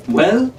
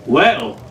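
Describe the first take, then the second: First: Sharp, higher rising question; impatient rising "Well?". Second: Even, unhurried falling "Well,"; cool and in no hurry; calm, settled "Well,". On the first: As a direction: demand an answer right now. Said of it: "Jean asked impatiently". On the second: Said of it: "Jack said calmly". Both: Acted.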